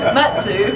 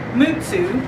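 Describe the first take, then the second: First: It is said with a Southern twang. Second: It is said without a Southern twang. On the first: "in the South we put the Southern twang to it" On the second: "correct pronunciation"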